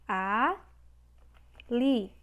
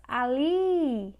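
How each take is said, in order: First: "Ali" split into A, pause, LI; syllable by syllable. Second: "Ali" with a long, swelling LI; stretched stressed syllable. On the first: Teacher answering how to separate the word, syllable by syllable. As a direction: hold A, pause, then say LI. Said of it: "Como é que a gente separa?". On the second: Teacher showing the last syllable is tonic, stretched stress. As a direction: lean hard on the final LI in "Ali". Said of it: "li é a última sílaba". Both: Shown as a demonstration.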